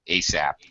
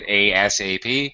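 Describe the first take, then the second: First: The letters are blended and said as one word. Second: Each letter is named separately, one by one. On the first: "pronounce them ASAP" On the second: "sometimes say the letters ASAP"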